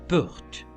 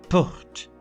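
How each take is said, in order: Both takes have the same delivery.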